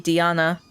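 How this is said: The name has an Italian pronunciation.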